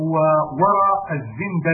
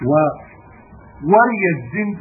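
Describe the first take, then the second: First: وورى with an a after the ra, wara; fatha on ra. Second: ووري with an i after the ra, wariya; kasra on ra. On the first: Reader giving the other verb form, وورى pronounced wara with fatha. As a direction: say وورى الزند as wara z-zand. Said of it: "بفتح العين". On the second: Reader citing the verb variant, ووري pronounced wariya with kasra. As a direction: say ووري الزند as wariya z-zand. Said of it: "بكسر الراء". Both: Shown as a demonstration.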